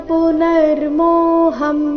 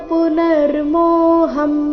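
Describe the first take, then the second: The two takes are said the same way.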